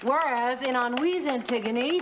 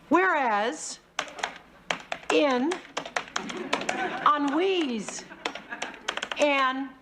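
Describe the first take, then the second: First: It is read very fast. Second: It is read very slowly.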